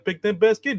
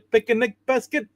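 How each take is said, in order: First: Picnic is said with two syllables. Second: Picnic is said with three syllables. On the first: The speaker calls it wrong. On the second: The speaker calls it right.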